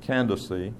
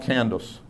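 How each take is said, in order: First: The name is said close to the Greek form. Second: The name is said like the modern name. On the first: The speaker calls it right. "the Greek pronunciation of her name is Candaces, which suggests an English pronunciation of Candace" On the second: The speaker calls it wrong. "not Candace. Candace just doesn't fit 2,000 years ago"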